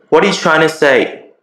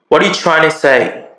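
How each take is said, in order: Both takes have the same delivery.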